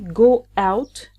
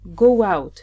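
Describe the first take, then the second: First: The two words are said separately, unlinked. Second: The words are linked with a w glide. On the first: The speaker calls it wrong. "Don't say go out" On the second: The speaker calls it right. "So here we add the wa sound"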